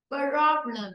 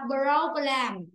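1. Trọng âm rơi vào âm tiết thứ nhất. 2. Trọng âm rơi vào âm tiết thứ hai. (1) "Bởi vì đấy là âm ơ, không còn trong âm" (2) "Không đọc là problem"

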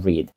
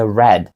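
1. Вимовляється як форма теперішнього часу. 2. Вимовляється як форма минулого часу. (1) "а не read" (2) "зразу зрозуміло, що потрібно сказати read"

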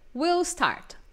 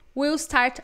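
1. We e will se juntam em uma única sílaba contraída. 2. We e will se juntam em uma única sílaba contraída.

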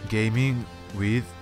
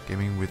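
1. On le dit avec un accent français. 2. On le dit avec un accent anglais.

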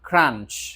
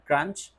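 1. প্রথম k ধ্বনিতে বাতাসের একটি ঝলক আছে। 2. প্রথম k ধ্বনিতে বাতাসের কোনো ঝলক নেই। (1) "always খ উচ্চারণ করার চেষ্টা করব।" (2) "This is not crunch"

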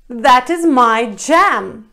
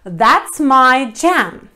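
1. 'That is' произносится как два полных слова. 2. 'That is' сокращается до одного слога.

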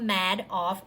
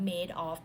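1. พยางค์แรกออกเสียงเหมือน 'mad' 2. พยางค์แรกออกเสียงเหมือน 'made' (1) "สะกดเหมือนคำว่า" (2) "แต่ว่าอ่านว่า"

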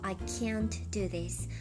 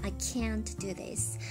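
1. Can'tには平らで前寄りの'a'の母音があります。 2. Can'tには平らで前寄りの'a'の母音があります。

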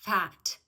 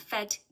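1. Це широко відкритий звук A. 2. Це вужчий, менш відкритий звук. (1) "Ми широко відкриваємо рот" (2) "ми не сходимо на fat"

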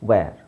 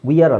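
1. ಸ್ವರ 'air' ಶಬ್ದ ಆಗಿದೆ. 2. ಸ್ವರ 'ee-uh' ಗ್ಲೈಡ್ ಆಗಿದೆ. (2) "ಇದನ್ನು ವಿಯರ್ ಅಂತ ಹೇಳೋದಲ್ಲ, ವಿಯರ್ ಅಲ್ಲ"

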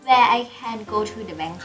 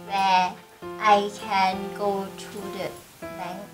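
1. ประโยคนี้อ่านเร็วกว่า 2. ประโยคนี้อ่านช้ากว่า (1) "ทำไมมันยาวจังเลยอะคะหนูอ่านจำไม่ทันแล้ว" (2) "ลองอ่านช้าๆอีกรอบ"

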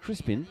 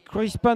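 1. Le nom est prononcé à l'anglaise. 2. Le nom est prononcé à la française.

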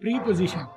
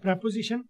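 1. पहला स्वर लंबा है, जैसे 'position' से पहले वाले 'pree' में। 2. पहला स्वर छोटा है, जैसे 'prep' में। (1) "आपने इसको प्री पोजिशन बोलना नहीं है" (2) "बड़ा बोला जाता है प्रेपोजिशन"

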